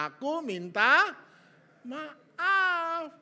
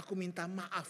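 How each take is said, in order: First: "Aku minta maaf" loud, high and stretched out; drawn-out, hammed-up "maaf" at high pitch; emphatic apology. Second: Said in the usual way. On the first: Shown as a demonstration. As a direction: belt out "minta maaf" slowly, word by word. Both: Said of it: "pengen dia dengar satu kata".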